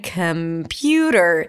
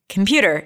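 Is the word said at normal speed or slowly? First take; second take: slowly; normal. First: The word is said slowly, syllable by syllable. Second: The word is said at a normal speed.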